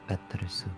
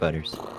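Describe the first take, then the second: First: The word is said in a Japanese accent. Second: The word is said in an English accent.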